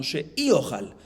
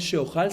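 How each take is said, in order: First: Corrected reading sheiojal, spelled out slowly; sheiojal, drawn out. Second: The misread form sheojal. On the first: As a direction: say sheiojal slowly, with a clear i before ojal. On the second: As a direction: say sheojal with a plain o, no i. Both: Shown as a demonstration. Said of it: "hay que arreglar la versión".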